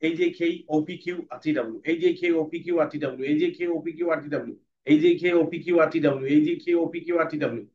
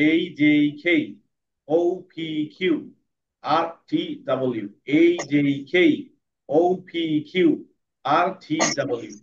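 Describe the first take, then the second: First: Fast reading. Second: Letters read slowly with pauses. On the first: Teacher demonstrating fast reading to class. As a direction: run the letters together fast. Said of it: "তারপরে পড়বো fast". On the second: Teacher demonstrating slow reading to class. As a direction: read each group slowly. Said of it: "প্রথমে slow পড়বো". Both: Shown as a demonstration.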